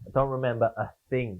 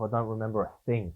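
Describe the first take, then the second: First: "don't" leaned on in the repeat; stress on don't. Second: Said in the usual way. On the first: Real, not acted. Narrator repeats his blackout for emphasis, stress on don't. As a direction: hit "don't" the second time.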